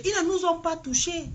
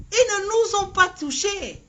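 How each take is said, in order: First: Said in the usual way. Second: "Ils ne nous ont pas touchés" said higher, each word firmly pressed; insisting. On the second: Shown as a demonstration. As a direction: hammer the denial home. (insistance appuyée sur "Ils ne nous ont pas touchés") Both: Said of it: "repeated with more force".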